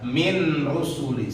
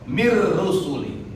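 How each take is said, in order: First: The n is pronounced separately before the r. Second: The n merges fully into a doubled r. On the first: The speaker calls it wrong. "Jangan dibaca min rusuli, salah" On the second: The speaker calls it right. "Nunnya masukkan ke ro"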